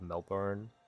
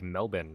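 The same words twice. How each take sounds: First: Melbourne is said in a non-Australian way. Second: Melbourne is said in an Australian way. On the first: "Instead of Melbourne" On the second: "You guys say like Melbourne, right?"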